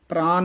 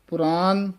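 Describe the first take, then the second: First: It starts with a p-r cluster, no vowel. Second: It starts with 'pu', a vowel after p. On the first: The speaker calls it wrong. "ਪ੍ਰਾਨ ਨਹੀਂ ਕਹਿ ਦੇਣਾ" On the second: The speaker calls it right. "ਪੁਰਾਨ ਦੇ ਪੱਪੇ ਔਂਕੜ ਨਾਲ ਉਚਾਰਨ ਕਰਨਾ ਹੈ"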